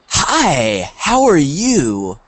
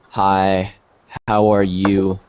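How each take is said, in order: First: Drawn-out greeting with big swooping intonation; excited, happy. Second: Low, flat, unenthusiastic greeting; bored, tired. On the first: Teacher showing students how intonation changes meaning, excited. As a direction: greet them with exaggerated, lingering delight. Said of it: "What is the difference?". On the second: Teacher showing students how tone changes meaning, bored and tired. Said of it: "That you are sad, not very happy". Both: Shown as a demonstration.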